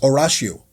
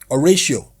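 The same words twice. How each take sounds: First: The A is said the Yoruba way. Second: The A is said the English way. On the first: The speaker calls it wrong. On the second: The speaker calls it right.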